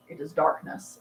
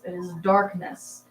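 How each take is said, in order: First: Said in the usual way. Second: Slow ominous dramatic repeat; mock dramatic. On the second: Shown as a demonstration. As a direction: intone it like doom.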